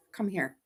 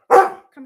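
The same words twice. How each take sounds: First: Quietly coaxing the dog to come; soft call to dog. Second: Higher, louder call; raised voice calling the dog over. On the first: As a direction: coax the dog over gently. Calling the dog softly. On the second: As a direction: call the dog across the room. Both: Real, not acted.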